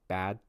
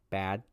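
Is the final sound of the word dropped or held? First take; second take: held; held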